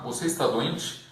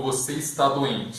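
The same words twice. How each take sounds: First: Rising question tune on "Você está doente?"; "Você está doente?" asked with a rise at the end. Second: Falling statement tune on "Você está doente?"; "Você está doente?" as a plain statement, falling at the end. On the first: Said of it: "né, só a entonação". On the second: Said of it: "a gente só muda a entonação". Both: Shown as a demonstration.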